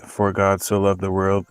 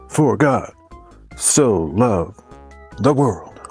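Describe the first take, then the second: First: It is said smoothly without dramatic pauses. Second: It is said with Captain Kirk-style halting pauses.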